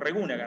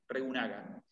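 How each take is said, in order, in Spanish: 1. El acento cae en la segunda sílaba. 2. El acento no cae en la segunda sílaba.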